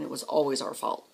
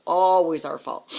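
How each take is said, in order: First: Said in the usual way. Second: "Always" stretched out and much louder; loud, drawn-out "Always" to drive it home; stress on ALWAYS. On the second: Real, not acted. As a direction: hit "Always" hard and drag it out slowly. Emphatic repeat of the phrase.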